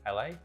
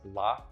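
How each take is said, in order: First: It is spelled out as two letters. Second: It is said as a single word. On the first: The abbreviation is read as a state. The speaker calls it right. "instead of L A" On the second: The abbreviation is not recognized as a state. The speaker calls it wrong. "it's going to read it as La"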